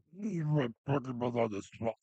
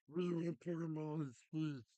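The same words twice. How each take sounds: First: The same fan chant pushed to a full yell; chanted, yell it even harder the second time; louder mock chant. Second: High, loud mocking chant of demanding fans; chanted, shout it like a whiny fan crowd.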